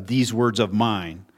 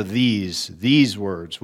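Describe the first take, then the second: First: Said in the usual way. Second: "these" said twice, pressed and falling, before "words"; stress on these. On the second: Shown as a demonstration. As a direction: lean hard on "these", then repeat "these words". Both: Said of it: "But there's an emphasis on the".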